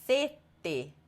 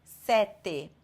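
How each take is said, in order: First: Sete with a closed E and a held T; long double T. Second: Sete with an open E and a short T; single short T. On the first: Teacher contrasting thirst with seven, closed E and long T. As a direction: pause on the T in sete, closed first vowel. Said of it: "essa palavra significa sede". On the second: Teacher contrasting two similar words, short single T. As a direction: say sete with no held T, open first vowel. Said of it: "uma letra E só, uma letra T só". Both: Shown as a demonstration.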